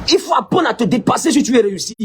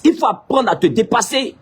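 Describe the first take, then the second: First: Preached shout. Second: Said in the usual way. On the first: Shown as a demonstration.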